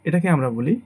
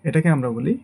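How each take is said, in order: The two takes are said the same way.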